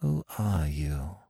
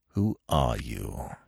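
First: Soft, slow, hushed question; low voice. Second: Low, slow, soft demand; stern demand. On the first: Captive woman questioning Smith, low voice. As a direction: ask it slowly under your voice. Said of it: "in a low voice". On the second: Smith confronting the captive woman, stern demand. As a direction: demand it slowly, with quiet authority. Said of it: "he demanded". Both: A narrator's reading.

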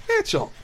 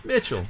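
First: Much higher squeaky repeat. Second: Said in the usual way. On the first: Pretend. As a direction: squeak the name up high. Repeating name in high squeak.

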